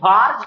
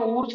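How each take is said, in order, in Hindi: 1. नाम की शुरुआत 'wa' ध्वनि से होती है। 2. नाम की शुरुआत 'oo' ध्वनि से होती है। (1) "कोई कोई कहते हैं इसको वार्ज कापलिंग रिएक्शन" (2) "हम इंडियन है तो हम ऊर्ज कहते हैं"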